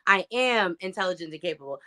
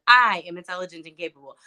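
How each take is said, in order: First: The stress falls on the word "am". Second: The stress falls on the word "I".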